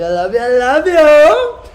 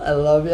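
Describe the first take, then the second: First: High, loud gushing; loud, high, gushing I love you; excited love outburst. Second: Said in the usual way. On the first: Real, not acted. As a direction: burst out with joy to the viewers. Farewell love, escalating.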